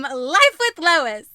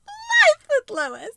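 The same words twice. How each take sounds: First: Life with Lois said slow and loud; spoken slowly. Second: Life with Lois squeaked high and slow; silly high retake. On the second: Flubbed retake, a goofy high Life with Lois. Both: Shown as a demonstration. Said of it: "Try her again".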